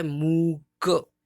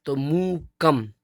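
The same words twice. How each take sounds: First: मूक stretched very slowly; drawn-out syllable. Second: मूकम said slowly and loud, with the bindi as a clear म at the end; clear final m. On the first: Teacher shows the bare written word मूक, slowly drawn out. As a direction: hold मूक long, without the final म. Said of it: "पहले क्या लिखा है?". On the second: Teacher shows how the bindi sounds as म. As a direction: land firmly on the म of मूकम. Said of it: "जिसको हम माँ बोलेंगे". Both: Shown as a demonstration.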